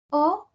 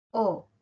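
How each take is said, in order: First: "o" alta, que sube como pregunta; o aguda. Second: "o" baja, sin subir; o grave. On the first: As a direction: sube mucho la "o". ("o" aguda, ascendente) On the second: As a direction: deja caer la "o". ("o" grave, descendente) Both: Shown as a demonstration.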